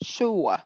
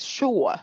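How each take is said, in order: First: The vowel is said with strong, heavy stress. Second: The vowel is said with strong, heavy stress.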